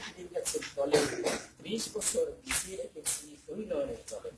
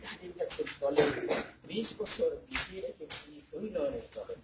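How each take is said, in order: First: It is recited smoothly, like a poem. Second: The same.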